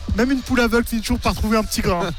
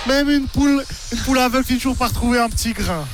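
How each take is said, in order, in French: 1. Elle est prononcée avec un accent neutre et simple. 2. Elle est prononcée avec un fort accent régional du Jura.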